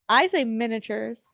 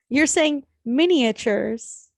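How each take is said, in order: First: The middle 'a' is dropped, like 'minute'. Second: Every syllable is said, including the middle 'a'. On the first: "I think I'm saying it lazy" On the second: "You're putting you're saying an extra"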